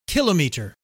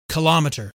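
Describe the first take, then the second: First: It is pronounced the usual British way. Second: It is pronounced the usual American way. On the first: "the British say kilometer, which resembles the French kilomètre" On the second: "Americans usually prefer kilometer"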